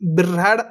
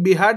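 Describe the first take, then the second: First: The word has an r sound before h. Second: The word is said without an r sound. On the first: The speaker calls it right. "बिऱ्हाड असं पाहिजे" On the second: The speaker calls it wrong. "इथं बिहाड नाही"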